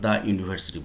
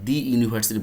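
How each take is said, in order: First: The word 'the' sounds like 'thuh'. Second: The word 'the' sounds like 'thee'. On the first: The speaker calls it right. "দ্য university বলতেছি" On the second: The speaker calls it wrong. "দি university বলতেছি না"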